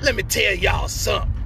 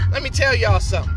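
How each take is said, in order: First: It is said in a put-on character voice. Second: It is said in his ordinary speaking voice.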